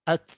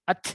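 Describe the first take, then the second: First: The final t is released lightly and briefly. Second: The final t is released with exaggerated force. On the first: The speaker calls it right. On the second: The speaker calls it wrong.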